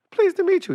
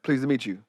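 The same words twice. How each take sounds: First: Much higher, light greeting. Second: Low, softer greeting; deep voice. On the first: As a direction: mimic the high voice people expect. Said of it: "He made me sound like [name]". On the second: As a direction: drop it down like a deep-voiced star. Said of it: "His voice is deep?". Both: Retold or imitated.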